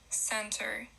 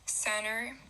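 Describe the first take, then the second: First: The T after the N is pronounced. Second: The T after the N is dropped.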